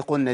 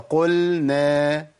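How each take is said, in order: First: "قلنا" quickly as "qunna"; falling "قلنا" with a double n and no lam; merged lam. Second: "قلنا" slowly as "qul-na"; slow chanted "قلنا", lam kept separate; clear lam. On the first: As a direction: drop the l in "قلنا". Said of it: "من إدغامها". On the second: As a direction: give "قلنا" a full l before n. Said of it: "هي". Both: Shown as a demonstration.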